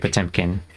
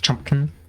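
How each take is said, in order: First: The name is said with a 'po-tem' sound. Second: The name is said with a 'chum' sound. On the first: This is the pronunciation people commonly used. "they just decided to say Potemkin" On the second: This is the intended original pronunciation. "His his like name was actually supposed to be pronounced Chumpkin"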